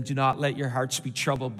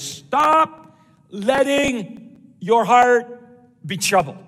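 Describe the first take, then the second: First: Said in the usual way. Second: Loud, high, very slow command; strong, emphatic command. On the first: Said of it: "I mean, oh, here it goes". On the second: Shown as a demonstration. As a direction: hammer out each word forcefully. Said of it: "it's really strong in the original language".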